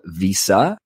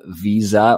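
First: It is said the American way, with an s. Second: It is said the Canadian way, with a z.

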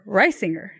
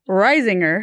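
First: The middle consonant is an S sound. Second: The middle consonant is a Z sound. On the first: The speaker calls it right. "the right way" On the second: The speaker calls it wrong. "The wrong way"

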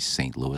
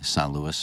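First: The name is said as Saint Louis, American-style. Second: The name is said as San Luis, island-style. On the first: This is how the hometown is normally said. The speaker calls it right. "I wouldn't say St. Louis" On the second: The speaker had picked up local island speech. The speaker calls it wrong. "I had kind of a dialect"

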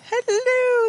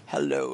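First: The greeting is said in a high-pitched voice. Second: The greeting is said in a deep voice. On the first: "I felt that was really high-pitched, way more than normal" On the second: "That's actually kind of like an impressively deep voice"

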